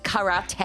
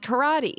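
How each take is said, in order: First: The word is said with Japanese pronunciation. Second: The word is said with English pronunciation. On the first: "in Japanese it's karate" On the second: "In English, it's karate"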